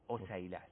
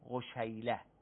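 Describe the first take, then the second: First: The middle consonant is an s sound. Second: The middle consonant is a sh sound. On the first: The speaker calls it right. "مهملتین" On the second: The speaker calls it wrong. "اگر نقطه میداشت میشد چی؟"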